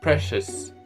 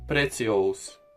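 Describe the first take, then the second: First: The word is said with its ordinary pronunciation. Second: Every letter is sounded out, Spanish-like.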